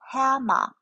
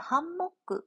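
First: It is said with English sounds and syllables. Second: It is said with Japanese-style syllables and vowels. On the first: The speaker calls it right. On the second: The speaker calls it wrong. "ハンモックっていう発音じゃなくて"

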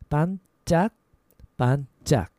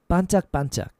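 First: It is said slowly, with a break. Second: It is said fast, run together.

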